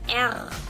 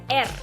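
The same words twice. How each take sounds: First: The R is a strong forceful tongue sound. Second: The R is a weak light tongue sound. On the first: "la R más fuerte" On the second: "la R débil española"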